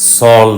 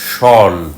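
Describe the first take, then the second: First: The syllable begins with an 's' sound. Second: The syllable begins with a 'sh' sound. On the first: The speaker calls it wrong. "সল না" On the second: The speaker calls it right. "সে কারণে উচ্চারণটা সল"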